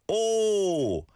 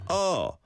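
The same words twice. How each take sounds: First: "oh" with a long, rounded O; corrected O sound. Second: "Oh" with an open "ah"-like vowel; imitated vowel slip. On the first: Shown as a demonstration. Teacher correcting a learner's vowel, drawn-out rounded "oh". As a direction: hold "oh" high on a clear O vowel. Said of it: "as in an O sound". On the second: Teacher echoing a learner's off vowel, mispronounced "Oh". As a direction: say "Oh" short and open, like "aw". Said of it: "rather than an R sound".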